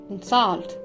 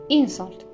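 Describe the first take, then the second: First: The stress is on the second syllable. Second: The stress is on the first syllable. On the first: It is used as a verb. "the verbs on the second" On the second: It is used as a noun. "the nouns stress is placed on the first syllable"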